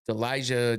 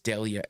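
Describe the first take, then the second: First: The middle consonant is an English 'j' sound. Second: The middle consonant is a soft 'y' sound. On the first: The speaker calls it wrong. "I keep saying Elijah because of the J" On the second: The speaker calls it right. "but it's Delia"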